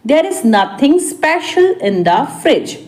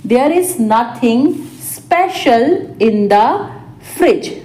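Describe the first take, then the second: First: Said in the usual way. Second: Small chunks with pauses; spaced-out repeat. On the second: Shown as a demonstration. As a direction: dictate it piece by piece. Teacher repeats translation word by word. (रुक-रुककर, टुकड़ों में)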